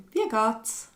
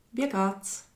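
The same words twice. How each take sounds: The two takes are said the same way.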